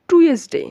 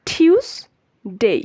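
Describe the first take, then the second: First: The first part sounds like 'too-ez'. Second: The first part sounds like 'tyooz'. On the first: The speaker calls it wrong. "আমরা এটাকে সবাই normally বলি টুয়েসডে" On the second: The speaker calls it right. "সঠিক এবং শুদ্ধ উচ্চারণ হচ্ছে টিউসডে"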